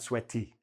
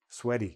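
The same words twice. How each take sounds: First: The middle consonant is a clear T. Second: The middle consonant sounds like a soft D. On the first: The speaker calls it wrong. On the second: The speaker calls it right.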